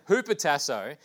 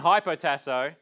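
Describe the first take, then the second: First: The first syllable sounds like 'hoo'. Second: The first syllable sounds like 'high'. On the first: This is how the original writer would have said it. The speaker calls it right. "John wouldn't say it like that. Hupotasso" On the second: This is how the written form might be read. The speaker calls it wrong. "It's written hypotasso"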